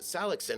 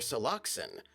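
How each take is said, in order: First: The stress is on the first syllable. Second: The stress is on the second syllable. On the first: "as if the emphasis is on the first syllable" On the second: "you put your emphasis on the second syllable"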